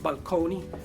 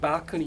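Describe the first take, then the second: First: It is said the older Italian-influenced way. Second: It is said the usual modern English way. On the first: This is how the word was said long ago. "used to be pronounced balconi because it comes from the Italian" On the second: This is how the word is said today. "the word balcony"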